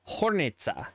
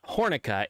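First: The c is pronounced like ts. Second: The c is pronounced like a k. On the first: The speaker calls it right. "it's Hornica" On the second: The speaker calls it wrong. "So it's not Hornica"

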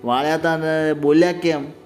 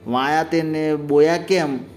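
First: The l sounds are pronounced clearly and normally. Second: The l sounds are replaced, in a lisping way. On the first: "એટલે કે" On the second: "બીજી રાણી ડાઈ થઈને એને કીધો"

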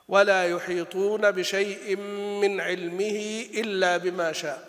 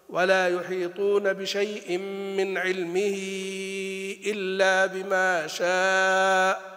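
First: The linking vowel after 'ilmihi' is short. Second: The linking vowel after 'ilmihi' is drawn out. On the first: "فإذا كنت تقصر المنفصل تقصر الصلة" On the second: "إذا كنت تمد المنفصل تمدها"

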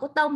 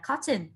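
First: It is said with a French-sounding pronunciation. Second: It is said with an English pronunciation. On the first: The speaker calls it wrong. "mình không đọc là cotton ... Cotton đọc như kiểu tiếng Pháp ấy" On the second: The speaker calls it right. "mình đọc là cotton ... tiếng Anh đọc là cotton"

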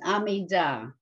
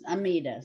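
First: The word is said with Hebrew pronunciation. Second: The word is said with Yiddish pronunciation. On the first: "the Hebrew pronunciation is Amidah" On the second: "The Yiddish way is Amidah"

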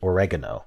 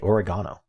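First: It is said in a non-British accent. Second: It is said in a British accent. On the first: The speaker calls it right. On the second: The speaker calls it wrong.

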